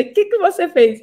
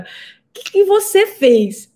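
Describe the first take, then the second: First: A higher, amazed repeat of the question; astonished doctor. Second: High, slow, amazed question; astonished doctor. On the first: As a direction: echo the doctor's surprise. (repetição espantada, mais aguda) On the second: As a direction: imitate the doctor's stunned disbelief. (médico espantado, voz aguda e lenta) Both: Retold or imitated. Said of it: "Ele falou desse jeito".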